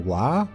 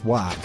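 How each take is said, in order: First: The word ends on an open vowel, no g. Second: The word ends with a hard g sound. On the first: The speaker calls it wrong. "which is just W A A A" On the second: The speaker calls it right. "Because you got the G H on the end"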